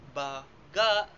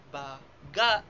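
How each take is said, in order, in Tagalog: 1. Nasa ikalawang pantig ang diin. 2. Nasa ikalawang pantig ang diin.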